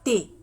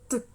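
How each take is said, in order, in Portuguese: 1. A letra é dita pelo nome completo. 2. Só o som puro da consoante é dito. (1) "a gente não fala T" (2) "a gente fala T, T, T"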